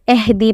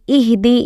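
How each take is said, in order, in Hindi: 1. पहला स्वर 'ay' जैसा है। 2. पहला स्वर छोटा 'ee' जैसा है। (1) "ये मजहूल है" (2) "ये मारूफ है यानी सही पढ़ना"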